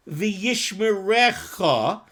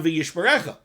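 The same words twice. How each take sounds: First: V'yishmerecha said slowly, last syllable cha drawn out; V'yishmerecha with the cha lengthened, like the Kohen; stretched ending. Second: Said in the usual way. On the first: Shown as a demonstration. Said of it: "stretch out the pronunciation of the last syllable". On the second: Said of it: "stretching out the last syllable of cha".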